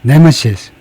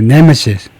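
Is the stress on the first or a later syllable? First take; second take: first; first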